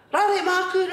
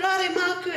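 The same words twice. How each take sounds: First: Put-on high-pitched, louder kid's plea; child begging. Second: Put-on child begging. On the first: Little son begging his nanny for sweets, high childish plea. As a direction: beg sweetly like a little boy. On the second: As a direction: coax it again like a little boy. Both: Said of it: "run into the nanny's room and go".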